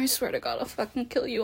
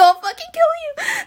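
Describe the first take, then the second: First: Quiet, lowered, soft menace. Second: Much higher, cracking, half-crying scream; unhinged shriek. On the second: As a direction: lose control on the threat. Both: Acted. Escalating threat during roleplay.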